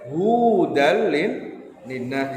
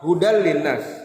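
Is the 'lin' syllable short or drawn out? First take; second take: drawn out; short. First: The 'lin' syllable is drawn out and lengthened. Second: The 'lin' syllable is short, with no break. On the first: The speaker calls it wrong. "kalian panjangkan membacanya" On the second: The speaker calls it right. "Tidak ada jeda, tidak ada panjang"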